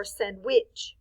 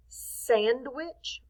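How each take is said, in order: First: SANDWICH oddly accented on WICH; stress on second syllable. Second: SANDWICH with a strong SAND, light wich; stress on first syllable. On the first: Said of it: "Which one sounds weird?". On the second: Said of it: "Do we say sandwich or sandwich?". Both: Shown as a demonstration.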